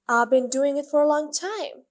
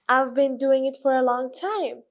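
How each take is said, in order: First: I've been is said fast and squeezed together. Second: I've been is said at a normal, clear pace.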